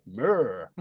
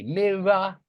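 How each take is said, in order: First: "mirror" as one long syllable, murr; Irish pronunciation. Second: "mirror" slowly in two clear syllables; own-area pronunciation. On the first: Teacher showing the Irish version, "mirror" squashed to one syllable. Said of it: "they don't make two syllables". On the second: Teacher showing his area's word, "mirror" in two syllables. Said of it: "In my area, we say". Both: Shown as a demonstration.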